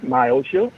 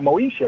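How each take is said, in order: First: The name begins with a 'my' sound. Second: The name begins with a 'mo' sound. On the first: The speaker calls it wrong. "Not Myosha" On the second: The speaker calls it right. "We're talking about Moesha"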